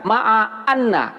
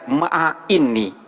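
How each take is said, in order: First: The word after ma'a begins with an 'a' vowel. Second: The word after ma'a begins with an 'i' vowel. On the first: The speaker calls it right. "Jadi dibaca ma'a anna" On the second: The speaker calls it wrong. "nggak boleh dibaca ma'a inni"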